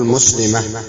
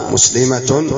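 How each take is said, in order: First: مسلمة as "muslimah", no t at the end; pausal h ending. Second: مسلمة ending in a voiced t, "muslimatun"; connected-form ending. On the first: Teacher showing how to stop on the word, مسلمة ending in h. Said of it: "ولك أن تقف عليها بالها". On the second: Teacher showing the mid-speech form, مسلمة ending in "-tun". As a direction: say مسلمة with the final ta sounded as "-tun". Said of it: "في الوسط". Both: Shown as a demonstration.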